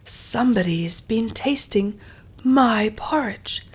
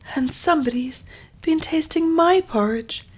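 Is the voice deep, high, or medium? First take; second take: deep; high. First: It is said in a deep, big voice. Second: It is said in a high, squealing voice.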